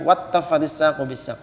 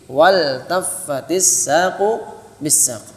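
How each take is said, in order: First: The L merges into a doubled T sound. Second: The L is pronounced clearly before the T. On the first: The speaker calls it wrong. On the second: The speaker calls it right.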